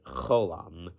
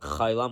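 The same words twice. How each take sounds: First: The first vowel is an O-like sound. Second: The first vowel is an I-like sound. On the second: The speaker's own Lubavitch community says it this way. "Most Lubavitch people like me pronounce it cholam with an I sound"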